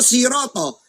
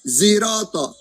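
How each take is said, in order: First: The word begins with an 's' sound. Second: The word begins with a 'z' sound. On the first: "siroto pakai sod" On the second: "ada yang gak biasa pakai sod, sin atau za"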